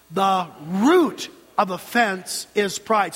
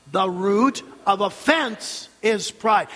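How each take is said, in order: First: Slow, with "root" drawn out and hit hard; stress on root. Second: Slow, with "offense" punched; stress on offense. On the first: Preacher drilling the congregation, heavy stress on "root". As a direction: lean heavily on "root", then step through the rest. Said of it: "with the emphasis on the word root". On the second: Preacher drilling the congregation, strong stress on "offense". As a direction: hit the word "offense" hard, set apart. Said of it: "with emphasis on offense". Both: Shown as a demonstration.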